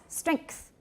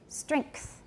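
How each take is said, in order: No difference in how they are said.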